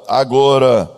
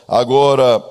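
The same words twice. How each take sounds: The two takes are said the same way.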